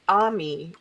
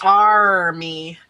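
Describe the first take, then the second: First: It is said without an R sound. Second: It is said with an R sound. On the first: It sounds pretty, like the French word for friend. "if you say it Ami, it sounds really pretty" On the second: It sounds tough, like protectors. "if you say it in English, army, it sounds really tough"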